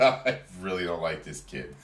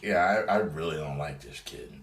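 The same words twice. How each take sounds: First: A touch of scorn in the voice; disdainful repeat. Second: Said in the usual way. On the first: Retold or imitated. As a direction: say it again with real dislike. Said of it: "I said". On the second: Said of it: "I was like".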